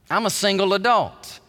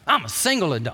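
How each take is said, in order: First: It is said in a plain, neutral tone. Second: It is said with a defensive edge.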